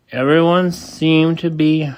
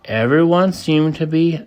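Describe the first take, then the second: No difference in how they are said.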